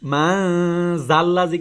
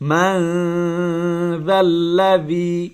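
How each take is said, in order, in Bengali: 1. ব্যঞ্জনটি একটি গুনগুনে 'z' ধ্বনি। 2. ব্যঞ্জনটি একটি নরম সুরযুক্ত 'th' ধ্বনি। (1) "মান জাল্লাজি কিন্তু হবে না" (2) "জাল এখানে কিন্তু জানা"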